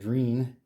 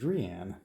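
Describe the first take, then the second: First: The name rhymes with the word dream. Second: The name does not rhyme with dream. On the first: The speaker calls it wrong. "which I was pronouncing Dreen, rhymes with dream" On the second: The speaker calls it right. "is actually correctly pronounced Drian"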